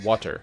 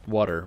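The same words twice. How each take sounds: First: The t sound is crisp and fully released. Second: The t sound is softened like a quick d. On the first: A learner of English says it this way. "somebody who doesn't speak English as their first language saying when they learn that" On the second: Most native speakers say it this way. "which is what most people will say"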